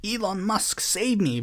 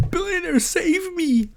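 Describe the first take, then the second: First: Mock plea. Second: Much higher, hammed-up desperate cry; mock scream. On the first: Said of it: "getting mad and saying". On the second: Mocking Galloway begging a billionaire for help, a high mock wail. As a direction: wail for the billionaire to rescue you. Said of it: "gonna scream to a billionaire".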